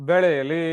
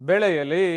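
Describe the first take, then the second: No difference in how they are said.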